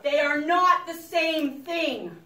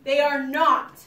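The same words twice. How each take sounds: First: "not" pressed hard, slow and louder; slow, emphatic "They are not the same thing"; stress on not. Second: Short, loud "not" to close it; loud, firm "They are not"; stress on not. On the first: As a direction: lean on "not" so they remember. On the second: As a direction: hammer "not" home once more. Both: Shown as a demonstration. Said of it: "You must remember that".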